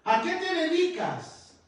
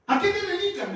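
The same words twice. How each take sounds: First: Teacher's question. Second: High, loud, laughing "¿A qué te dedicas?"; laughing question. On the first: Teacher asks former pupil. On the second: Teacher laughing as she asks her former pupil what he does. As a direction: ask it again through a laugh. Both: Retold or imitated.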